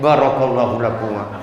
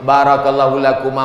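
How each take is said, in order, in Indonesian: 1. Diucapkan dengan terpaksa dan tidak senang. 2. Diucapkan dengan lepas dan gembira. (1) "doanya sama tapi bunyinya lain" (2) "doanya plong, wajahnya senyum"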